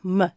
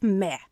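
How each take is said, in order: First: "m" said as muh, with a schwa; schwa sound. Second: "me" with a clear full vowel, no schwa; mistaken full vowel. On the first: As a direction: relax the vowel in "m" into an unstressed uh. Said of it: "it's actually the schwa sound". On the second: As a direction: say "me" as spelt M E, vowel unreduced. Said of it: "it is not me". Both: Shown as a demonstration.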